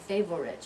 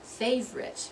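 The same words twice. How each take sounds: First: The word is said with three full syllables. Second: The word is said with only two syllables. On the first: The speaker calls it wrong. "You're not going to say three syllables" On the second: The speaker calls it right. "You're only going to say two syllables"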